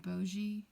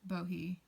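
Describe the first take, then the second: First: The middle consonant is a J sound. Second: The middle consonant is an H sound.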